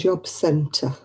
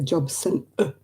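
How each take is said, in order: First: The t sound is clearly pronounced. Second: The t sound is dropped. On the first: "Instead of saying" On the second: "they miss the tea out of everything"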